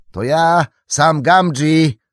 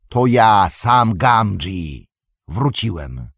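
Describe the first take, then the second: First: High, loud drawn-out hail; calling out. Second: Calling back. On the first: Sam hails the Cottons at a gallop, calling out. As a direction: shout your name while still riding up. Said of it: "zawołał w pędzie jeszcze Sam". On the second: Sam identifies himself to old Cotton, calling back. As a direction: announce yourself across the dark. Sam answers the farmer's challenge. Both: A narrator's reading.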